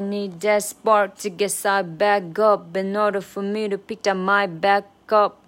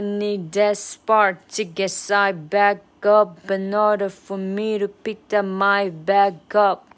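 First: The line is said at normal speed. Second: The line is said slowly. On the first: The speaker calls it wrong. "我最后一句话好像没有慢下来" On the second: The speaker calls it right. "再来一次"

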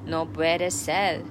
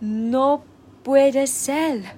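First: It is said very calmly and evenly. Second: It is said with surprise and lively intonation.

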